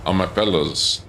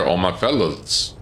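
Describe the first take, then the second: First: Said in the usual way. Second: Slow words through a yawn. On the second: Real, not acted. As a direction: say it mid-yawn. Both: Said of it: "Excuse me, yawning into the pit".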